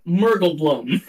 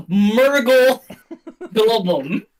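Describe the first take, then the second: First: "Murgle Blum" run together, last word one syllable; simplified pronunciation. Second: "Murgle Globum" split by a pause between the words; intended pronunciation. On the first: Game master gives his paperwork version, "Murgle Blum" kept short. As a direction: say "Murgle Blum" lower, without a pause. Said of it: "Or as I have put it on my paperwork". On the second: Game master announces the survivor, "Murgle Globum" in two careful parts. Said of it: "say how he said they are supposed to be pronounced". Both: Shown as a demonstration.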